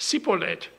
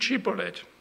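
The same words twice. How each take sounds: First: The word begins with a plain s sound. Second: The word begins with a sh sound. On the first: The speaker gives themselves away as an outsider. The speaker calls it wrong. "Die haben gesagt" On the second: The speaker passes as a local. The speaker calls it right.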